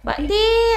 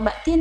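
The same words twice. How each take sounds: First: The name is shouted, with a loud, pushed 'Tin'. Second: The name is said at a plain, ordinary volume. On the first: The speaker calls it right. "nyaringnya tuh loh. Tinnya tuh digas" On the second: The speaker calls it wrong. "bukan Mbak Tin gitu"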